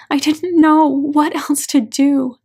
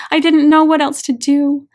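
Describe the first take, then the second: First: Slower, drawn-out tearful repeat; a broken, weeping repeat; slow anguished repeat. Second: Louder, higher cry of agony; sobbing out her helplessness; anguished cry. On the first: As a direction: let it drag out through tears. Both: A narrator's reading. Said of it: "The agony in her voice is indescribable".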